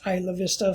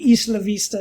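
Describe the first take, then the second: First: The name is said the anglicized English way. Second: The name is said the original Spanish way. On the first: This is how locals have long said it. The speaker calls it wrong. "it's been mispronounced Isla Vista for decades now" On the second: This is the name's proper pronunciation. The speaker calls it right. "it's actually Isla Vista is how it's pronounced"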